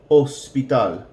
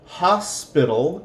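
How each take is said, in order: First: The word begins with no h sound. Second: The word begins with an audible h sound. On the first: "The H is completely silent" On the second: "hospital in English"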